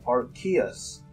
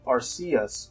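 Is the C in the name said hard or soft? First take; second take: hard; soft. First: The C is said as a hard K sound. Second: The C is said as a soft S sound. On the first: "with a hard K" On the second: "with a soft C"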